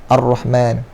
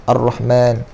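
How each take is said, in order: No difference in how they are said.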